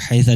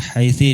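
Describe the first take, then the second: First: The word ends with an a vowel. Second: The word ends with an i vowel. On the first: "dengan fathah" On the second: "dengan kasrah"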